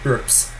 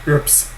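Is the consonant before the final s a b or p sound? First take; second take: p sound; p sound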